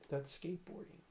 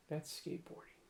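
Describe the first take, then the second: First: Said in the usual way. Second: Soft unvoiced aside: That's skateboarding; breathy hush on That's skateboarding; whispered. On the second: Shown as a demonstration.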